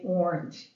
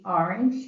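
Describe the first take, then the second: First: "orange" with an OR first vowel, "OR-inj"; rounded first vowel in "orange", as in "or"; kids' orange. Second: "orange" with an AH first vowel, "AR-inj"; open, unrounded first vowel in "orange"; Long Island orange. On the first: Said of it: "My kids say orange". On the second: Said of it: "I say the word O R A N G E". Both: Shown as a demonstration.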